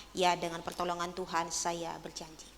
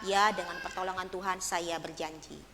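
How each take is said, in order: No difference in how they are said.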